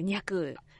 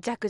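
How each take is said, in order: First: The syllable begins with an ny sound. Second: The syllable begins with a j sound. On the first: The speaker calls it right. "若のはずです" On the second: The speaker calls it wrong. "弱じゃなくて"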